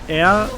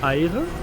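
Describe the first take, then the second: First: The name sounds like the word 'air'. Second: The name sounds like 'eye-ruh', with two syllables. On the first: The speaker calls it right. "how she said air" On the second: The speaker calls it wrong. "I thought air would be pronounced Eire"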